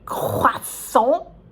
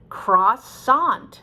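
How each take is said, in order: First: It is said with a French pronunciation. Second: It is said with an American English pronunciation. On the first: The speaker calls it wrong. "Should I give it my French accent?" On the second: The speaker calls it right. "It's perfectly natural in English"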